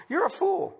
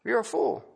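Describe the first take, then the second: First: Pitched high, punched out; preacher's high rebuke; sharp rebuke. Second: Said in the usual way. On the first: Acted. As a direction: fling the words up high at them.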